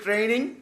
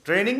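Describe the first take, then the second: First: It begins with tr and has n only. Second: It begins with tr and has n only.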